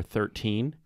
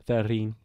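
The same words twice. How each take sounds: First: Said in the usual way. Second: New Zealand "Thirteen" with a softened middle T; mock New Zealand pronunciation of "Thirteen"; Kiwi accent. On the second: Shown as a demonstration. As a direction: say "Thirteen" like a Kiwi, close to "therreen". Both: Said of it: "the way they say the number thirteen".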